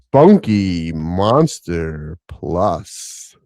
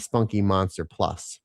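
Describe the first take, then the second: First: It is said in a deep, bassy voice. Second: It is said in an ordinary speaking voice.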